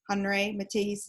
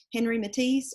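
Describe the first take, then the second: First: "Henri Matisse" with Henri said the French way, on-REE. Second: "Henry Matisse" with Henry said the English way, HEN-ree. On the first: Teacher to class, correcting to the French name. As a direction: give "Henri" its French sound, no H. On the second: Teacher to class, first naming the painter the English way. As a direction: say "Henry" as the plain English name, then "Matisse". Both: Shown as a demonstration. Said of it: "is how some people pronounce it".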